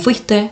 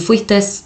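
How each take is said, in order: First: The word ends with a vowel sound. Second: The word ends with an added s sound. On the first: The speaker calls it right. "en lugar de" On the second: The speaker calls it wrong. "que se le agrega una S"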